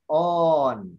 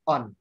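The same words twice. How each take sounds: First: The vowel is held long. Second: The vowel is kept short. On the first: It is the masculine ending written with omega. "Ada ada panjang" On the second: It is the neuter ending written with omicron. "Kalau netral"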